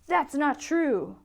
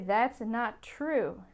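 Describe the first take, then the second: First: It is said with a lot of emotion. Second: It is said calmly, without strong emotion.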